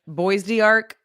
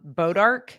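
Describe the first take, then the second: First: The word sounds like 'Boise Arc'. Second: The word sounds like 'Bodark'. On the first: The speaker is not from the area. "you're not from here" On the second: The speaker is a local. "it's sort of like um Bodark"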